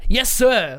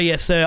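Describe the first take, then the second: First: It is said in an eager, energetic way. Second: It is said in a flat, dutiful way. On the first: The speaker is eager to get going. "has a lot of enthusiasm and emotion behind it ... Like, you know, let's do this" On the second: The speaker is simply obeying an order. "It's not just like, sir, yes, sir, I'm obedient"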